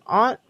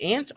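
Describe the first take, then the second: First: "Aunt" with an open ah; "ahnt" pronunciation. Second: "Aunt" said like the insect ant; "ant" pronunciation. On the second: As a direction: give "Aunt" a short a, as in cat. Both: Shown as a demonstration. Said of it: "how do you say it?".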